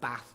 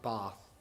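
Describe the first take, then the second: First: The a vowel is short and flat. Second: The a vowel is long and broad. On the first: This is how the speaker says it. "I pronounce the a, so I'm Bath" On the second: This is how the speaker does not say it. "not Bath"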